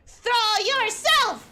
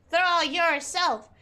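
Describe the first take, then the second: First: Higher, slow emphatic order; insistent command. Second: Said in the usual way. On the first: Real, not acted. Streamer urging game character off the cliff, insistent raised command. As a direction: order it slowly, driving up on the last word.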